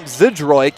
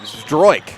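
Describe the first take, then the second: First: A vowel separates the Z and D sounds. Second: The Z and D sounds are run together. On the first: The speaker calls it wrong. "not not Zidroik" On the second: The speaker calls it right. "combine that Z and D into a, a Zdroik"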